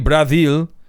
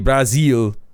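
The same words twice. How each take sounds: First: The z sound is weak or not clearly voiced. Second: The z sound is clearly and fully voiced. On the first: The speaker calls it wrong. "you don't say Brazil" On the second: The speaker calls it right. "You actually pronounce the Z"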